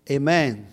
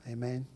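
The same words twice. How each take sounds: First: Much louder, emphatic Amen. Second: Said in the usual way. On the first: Real, not acted. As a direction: call it out to rouse the congregation. Repeats it louder to congregation.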